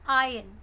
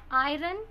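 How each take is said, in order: First: The R sound is silent in the word. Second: The R sound is pronounced in the word. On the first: The speaker calls it right. "R is silent here. This is iron" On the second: The speaker calls it wrong. "Iron is incorrect pronunciation of this word"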